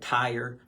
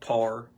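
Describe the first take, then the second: First: The vowel is a full 'ire' sound. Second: The vowel is flattened, Eastern Kentucky style.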